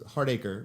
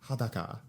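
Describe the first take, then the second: First: An R sound follows the first vowel. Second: No R sound follows the first vowel. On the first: "They don't have R's uh, at the end of their syllables" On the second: "So Hardacre becomes Hadaka"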